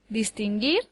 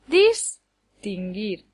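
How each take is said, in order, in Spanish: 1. El acento está en la última sílaba. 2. El acento está en la primera sílaba. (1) "lleva el acento en la última sílaba" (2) "daría lugar a palabras que no existen"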